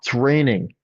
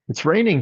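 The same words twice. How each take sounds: First: It is said in a groaning, complaining tone. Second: It is said in a bright, cheerful tone. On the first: The rain is a problem. "Same words, different energy" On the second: It is simply a pleasant observation. "Or hey"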